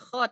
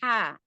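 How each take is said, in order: First: The consonant is a rough, scraping throat sound. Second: The consonant is a smooth, breathy throat sound. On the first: The speaker calls it wrong. "bukan kho" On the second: The speaker calls it right. "tapi ha"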